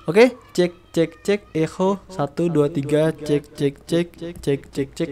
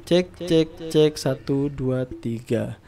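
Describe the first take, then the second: First: Mic echo effect. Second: Said in the usual way. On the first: Shown as a demonstration. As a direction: cek with reverb trailing. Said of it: "gua bakalan tes dari echo-nya". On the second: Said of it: "gua matiin lagi echo-nya".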